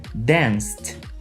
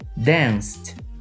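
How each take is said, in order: First: The ending is a short T sound. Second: The same.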